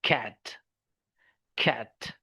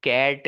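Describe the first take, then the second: First: "कैट" as "khat", airy k, pitch lower; aspirated K. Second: "कैट" with a hard dry k; no puff on the k of "कैट"; wrong unaspirated K. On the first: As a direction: puff out the k of "कैट". (हवा वाले ख जैसा "कैट") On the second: (बिना हवा के "कैट") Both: Shown as a demonstration. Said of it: "कैट नहीं".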